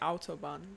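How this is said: It is said with a German accent.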